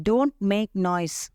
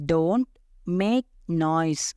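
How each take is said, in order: First: Said in the usual way. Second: "Don't ... make ... noise", a pause after each word; very slow, separated words; say-along drill. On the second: Shown as a demonstration. Teacher leading learners to say it along, word by word. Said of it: "என் கூட சேர்ந்து சொல்லுங்க".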